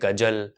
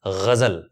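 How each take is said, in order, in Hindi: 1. दोनों व्यंजन नरम घर्षी ध्वनियाँ नहीं हैं। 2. दोनों व्यंजन नरम घर्षी ध्वनियाँ हैं, gh और z। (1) "या बोलते हैं" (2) "सही उच्चारण है ग़ज़ल"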